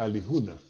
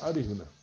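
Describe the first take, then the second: First: The second consonant is an l sound. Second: The second consonant is an r sound. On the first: This is the form used in the email address. "o sea, Alijuna" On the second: This is the form used in the Wayuu language. "en Guayú que se pronuncia Aríjuna"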